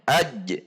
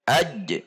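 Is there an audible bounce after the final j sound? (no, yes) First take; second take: yes; yes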